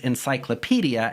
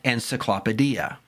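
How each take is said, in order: First: The stress falls on the usual syllable. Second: The stress falls on an unusual syllable. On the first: The speaker calls it right. "the word is encyclopedia" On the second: The speaker calls it wrong. "and not encyclopedia"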